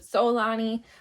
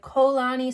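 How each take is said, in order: First: The name begins with a plain s sound. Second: The name begins with a plain k sound. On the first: "some said Solani" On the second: "Some said Kolani"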